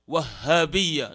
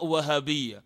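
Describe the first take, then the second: First: The h sound is doubled and held longer. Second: The h sound is single and short. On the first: The speaker calls it right. "is supposed to be Wahhabiyya, with the shadda on the ha" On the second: The speaker calls it wrong. "not Wahhabiyya"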